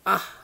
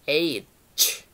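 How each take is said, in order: First: It is pronounced like ah. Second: It is pronounced like aitch. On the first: The speaker calls it wrong. "ada yang mengucapkan ah" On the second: The speaker calls it right. "yang betul huruf H itu dibaca H"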